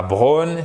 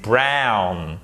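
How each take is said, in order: First: Drawn-out "brown" mispronounced as "bronne"; no diphthong. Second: "brown" with its ow glide; diphthong in brown. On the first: Teacher showing the French learner's mistake, single-vowel "brown". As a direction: hold one o vowel in "brown", no glide. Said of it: "C'est pas brown". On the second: Teacher correcting the mistake, full diphthong in "brown". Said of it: "savoir faire les diphtongues". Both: Shown as a demonstration.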